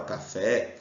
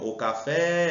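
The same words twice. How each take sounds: First: Said in the usual way. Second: "café" with the final "fé" stretched long; calling the word. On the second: Shown as a demonstration. Teacher calls the word to find its stress, drawn-out "fé" in "café". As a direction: call out "café", holding the last syllable. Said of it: "é só chamar ele".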